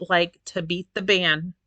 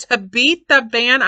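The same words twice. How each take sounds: First: Said in the usual way. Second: Louder, higher, stress on the; emphatic repeat. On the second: Real, not acted. Complaining to viewers about bloating weight, emphatic. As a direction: punch the phrase back out.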